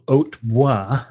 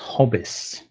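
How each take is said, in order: First: The name is said with a French pronunciation. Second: The name is said as the English 'Hobbis'. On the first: "as I would say in the French form" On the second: "called by the locals Hobbis"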